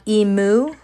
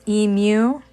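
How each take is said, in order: First: The ending sounds like a cow's moo. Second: The ending does not sound like moo. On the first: The speaker calls it wrong. "not emu, like a goth cow" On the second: The speaker calls it right. "but it's emu"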